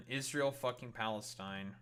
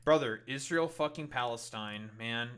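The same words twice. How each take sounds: First: Said in the usual way. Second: Israel fucking Palestine called out louder, Brother stressed; Brother, Israel fucking Palestine punched out loud; loud retort. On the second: Real, not acted. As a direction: fire it back hard. Fires back a counter-argument loudly.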